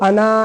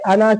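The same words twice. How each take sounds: First: The final vowel is drawn out long. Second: The final vowel is short and quick. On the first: The speaker calls it wrong. "ऐसे खींच के नहीं बोलेंगे" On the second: The speaker calls it right. "अना की तरह पढ़ेंगे"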